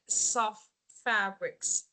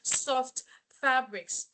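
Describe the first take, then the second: First: The t at the end of 'soft' is dropped. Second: The t at the end of 'soft' is pronounced. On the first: The speaker calls it right. "You don't need to pronounce the t sounds" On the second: The speaker calls it wrong. "It's not soft fabrics"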